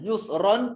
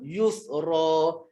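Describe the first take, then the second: First: The word ends with a short vowel plus n. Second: The word ends with a lengthened a vowel. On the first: This is the full reading with nunation. "Bacaan asal adalah yusron" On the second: This is the reading used when stopping on the word. "ra tu dua harakat lah"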